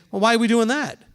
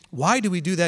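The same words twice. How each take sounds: First: "Well, why are we doing that?" pushed harder, falling at the end; skeptical challenge. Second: Calm, open "Why do we do that?" asked to learn; genuine curious question. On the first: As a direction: challenge it as if it's pointless. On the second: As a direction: ask humbly, wanting to understand. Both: Shown as a demonstration. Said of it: "It sounds just like a tone of voice thing".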